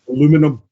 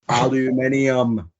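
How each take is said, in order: First: It is said with four syllables, American style. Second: It is said with five syllables, British style.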